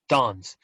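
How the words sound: The vowel is the long a of father. "And British is"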